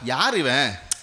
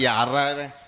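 First: It is said with amazed admiration. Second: It is said in a bored, fed-up way.

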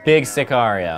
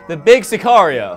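First: It is said at normal, quieter volume. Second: It is said louder.

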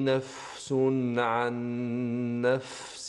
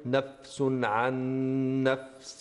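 First: The f sound is soft and drawn out. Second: The f sound is cut short and hard. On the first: The speaker calls it right. "هكذا تكون رخوة شوية، امتداد في الصوت مع المحافظة على همسها" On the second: The speaker calls it wrong. "لا نقول نفس عن نفس"

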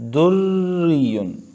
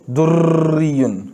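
First: The r sound is light without repeated trills. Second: The r sound is rolled with repeated trills. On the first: The speaker calls it right. "ठीक है" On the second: The speaker calls it wrong. "तो दुर्रियुन ऐसे नहीं पढ़ना, दुर्र नहीं पढ़ना"

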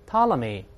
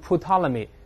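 First: The initial P sound is silent. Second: The initial P sound is pronounced. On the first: The speaker calls it right. "P 不发音，大声来一遍" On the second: The speaker calls it wrong. "不要读成Ptolemy，他不这么读哦。"

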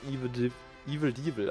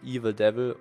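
First: The name has a German-style pronunciation. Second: The name has an ordinary English pronunciation.

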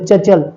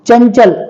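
First: The first syllable has no nasal hum before 'ch'. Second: The first syllable has a nasal hum before 'ch'. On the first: The speaker calls it wrong. "आता हे जर अनुस्वार काढलं तर चचल होईल फक्त" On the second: The speaker calls it right. "चंचल या शब्दावरती बघा"

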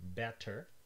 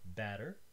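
First: The middle consonant is a full T sound. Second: The middle consonant is a light tongue tap. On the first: "you probably don't say these words with a T in the middle" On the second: "You probably use an alveolar tap, a light touch of the tongue"

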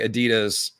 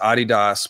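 First: It uses the American pronunciation of the name. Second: It uses the international pronunciation of the name. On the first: The speaker calls it wrong. "It's only we Americans who say Adidas" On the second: The speaker calls it right. "The rest of the world says Adidas"

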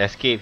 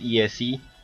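First: The name sounds like the English word escape. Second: The name does not sound like escape. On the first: The speaker calls it wrong. "Escape is not escape" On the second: The speaker calls it right. "he's ESE"

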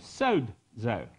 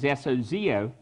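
First: The word is said with a D sound. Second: The word is said without a D sound. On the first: "you put a little D sound in there" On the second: "the transliteration of it is sozio"

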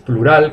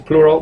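First: The stress is on the last syllable. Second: The stress is on the first syllable. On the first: The speaker calls it wrong. "no es plural como en español" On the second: The speaker calls it right. "el acento va al principio"

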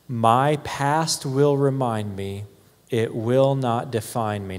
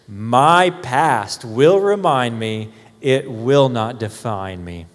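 First: It is read in a plain, ordinary way. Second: It is read with strong, heartfelt conviction.

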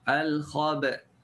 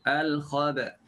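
Both takes have the same delivery.

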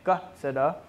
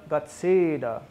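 First: The stressed vowel is short, without a falling pitch. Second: The stressed vowel is lengthened, with a falling pitch. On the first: The speaker calls it wrong. "they're saying Gatseda instead of" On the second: The speaker calls it right. "Gatseda means the stress goes down and lengthened"

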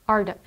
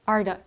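The two takes are said the same way.

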